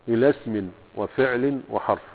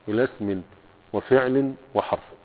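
The two takes are said the same way.

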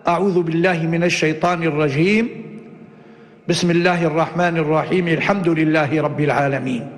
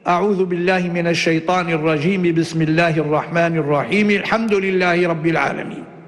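First: A pause comes only after the first phrase. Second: All three phrases run together without any pause. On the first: "قطع الأول ووصل الثاني بالثالث" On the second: "وصل الجميع"

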